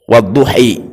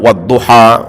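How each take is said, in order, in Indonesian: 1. Kata ini berakhir dengan vokal yang mirip 'i'. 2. Kata ini berakhir dengan vokal 'a' yang terbuka. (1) "Nanti ada beberapa qiraah bacanya wadduhi" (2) "itu kan di kita wadduha"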